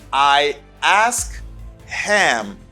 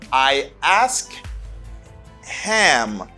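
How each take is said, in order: No difference in how they are said.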